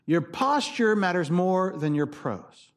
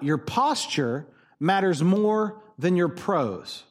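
First: Slow, POSTURE leaning forward; slow emphatic repeat. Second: Slow, every word weighed; preacher's deliberate refrain; slow emphatic. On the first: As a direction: repeat the line slowly with weight. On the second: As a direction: drive the key line home slowly. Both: Shown as a demonstration. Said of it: "please take this sentence".

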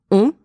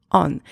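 First: "on" as a rounded nasal vowel with silent N; "on" as one nasal sound, no consonant; French nasal vowel. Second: "on" with an open vowel and pronounced N; "on" un-French, closing on N; wrong English-style vowel. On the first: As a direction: say "on" through the nose, French style. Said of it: "It is a nasal vowel sound". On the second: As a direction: say "on" as the English word, the error to avoid. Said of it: "not on". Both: Shown as a demonstration.

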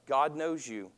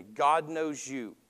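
First: Said in the usual way. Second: God knows you stretched slowly with weight on God; slow the line right down and lean on God; slow emphatic repeat. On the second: Shown as a demonstration. Preacher repeats God knows you to the congregation, slow and emphatic. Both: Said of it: "Listen to me".

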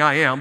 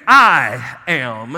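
First: Said in the usual way. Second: Loud, drawn-out stress on "I" in "I am"; emphatic I AM. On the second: Shown as a demonstration. Preacher showing the congregation the emphatic Greek, a weighty, stressed "I am". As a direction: hit "I" hard and long, then let "am" fall. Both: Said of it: "you're saying emphatically".

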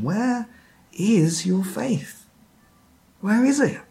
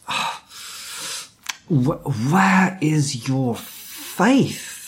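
First: Earnest, searching question, slow on the faith part; sincere question. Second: Mock exasperated, dragged-out sigh of a question; frustrated Jesus. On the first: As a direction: ask it gently, really wanting an answer. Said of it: "actually asking them a question". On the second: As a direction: play Jesus as fed up, stretching the words out slowly. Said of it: "as if Jesus was saying it like that". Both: Shown as a demonstration.

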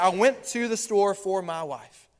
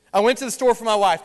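First: Slow and sincere, lingering on went; sincere good reading. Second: Quick, sly, a bit louder, with a wink in the voice; dark sly reading. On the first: Pastor voicing the devoted husband's meaning for church, slow and sincere. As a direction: say it gently as a loving husband. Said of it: "on the other end, see, I got you in the light". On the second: Pastor playing the evil side of the phrase for church, sly and quick. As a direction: rattle it off like it hides a scheming motive. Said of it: "y'all will be dark today. You'll be negative. You'll be evil".

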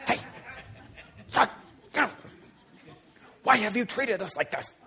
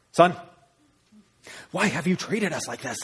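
First: High, strained stage whisper; stern whisper. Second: Higher-pitched scolding parent; angry mother. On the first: Mom to son in church, stern stage whisper. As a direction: scold under your breath like a mom at church. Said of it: "whispered it a little bit". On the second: Mother scolding her son in the temple, angry. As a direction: demand an explanation from your child. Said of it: "imagine she said it like that". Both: Acted.

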